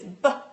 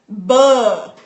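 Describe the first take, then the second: First: The b sound is clipped short without vowel. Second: The b sound carries a drawn-out uh vowel. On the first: The speaker calls it right. "it's just B. It's buh, buh, buh. Like just short sounds" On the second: The speaker calls it wrong. "they were pronouncing the sound for B, for the letter B, like buh"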